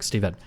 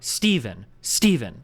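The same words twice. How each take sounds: First: Steven in even syllables, lower and unstressed; level, Japanese-style Steven; Japanese pronunciation. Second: Steven with STE punched and falling; English-style Steven, heavily stressed; hard English stress. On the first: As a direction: say Steven without punching the first syllable. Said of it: "Whereas, like, in Japanese". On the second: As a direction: hit the first syllable of Steven hard. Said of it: "very hard accents in English". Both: Shown as a demonstration.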